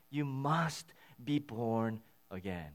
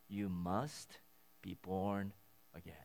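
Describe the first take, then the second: First: "You must be born again" said slowly, each word given weight; slow, weighty statement. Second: Simply said. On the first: Pastor stating the core message, slow and weighty. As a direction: land the message slowly and firmly. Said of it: "that's the message". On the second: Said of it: "he sort of simply says". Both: Shown as a demonstration.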